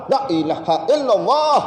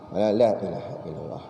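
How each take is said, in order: First: It is said loudly and strongly. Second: It is said softly and quietly.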